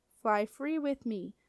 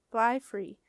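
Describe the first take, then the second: First: Slow, dreamy murmur to himself; "Fly free with me" drawn out lovingly, each word savored; a boy tasting words he loves; savoring the words slowly. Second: Said in the usual way. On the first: A narrator's reading. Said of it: "loving how the words sounded".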